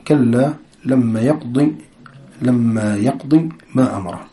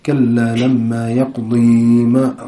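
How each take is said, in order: First: يقضي read with a short كسرة on the ضاد and no long ياء; careful recitation, يقضي with the ياء dropped; correct reading. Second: كلا لما يقضي with the ياء of يقضي kept, drawn out slowly; slow mock imam reading يقضي with the ياء; wrong reading. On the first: Shown as a demonstration. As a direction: clip يقضي to a short final vowel. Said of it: "خطأ". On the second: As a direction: read يقضي keeping the final ياء, as a mistaken imam would. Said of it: "إذا ما كان مثلًا عنده علم في القرآن، كيف بقرأ؟".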